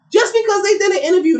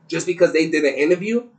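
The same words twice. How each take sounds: First: Disbelieving, much higher and louder; incredulous. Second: Said in the usual way. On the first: Real, not acted. Host repeating the claim about the interview in disbelief. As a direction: throw the words back in disbelief.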